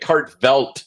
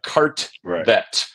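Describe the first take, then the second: First: An L sound comes before the final T. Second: No L sound comes before the final T. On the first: The speaker calls it wrong. "the most common mispronunciation" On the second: The speaker calls it right. "There's no L in it"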